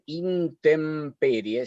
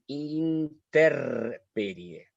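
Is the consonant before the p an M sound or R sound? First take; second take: M sound; R sound. First: An m sound comes before the p. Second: An r sound comes before the p. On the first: The speaker calls it right. "antes de la, de la P va M" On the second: The speaker calls it wrong. "Ponen interperie. ... es un horror"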